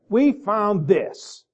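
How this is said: It is said in a contemptuous tone.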